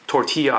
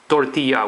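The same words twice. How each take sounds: First: It is said with an American accent. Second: It is said with a Spanish accent.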